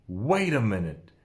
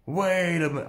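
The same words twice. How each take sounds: First: Said in the usual way. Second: Freaked out. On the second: Retold or imitated. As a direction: repeat it, pitched up, as the shock lands. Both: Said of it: "I personally freaked out".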